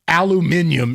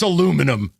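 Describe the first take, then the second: First: It is said with a British pronunciation. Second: It is said with an American pronunciation. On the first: The speaker calls it wrong. "the same crap the British do" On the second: The speaker calls it right. "It's aluminum"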